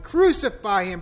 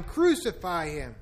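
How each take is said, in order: First: Loud, high shout. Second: Drawn-out, slower second cry; slower repeat. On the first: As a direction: hurl the demand out. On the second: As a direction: let the echo stretch, slower. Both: A narrator's reading. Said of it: "they shouted".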